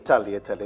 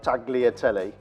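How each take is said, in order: First: The G is silent, with a soft 'ly' sound. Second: A hard G sound is pronounced in the middle. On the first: The speaker calls it right. "You don't pronounce the G" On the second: The speaker calls it wrong. "not tagliatelle"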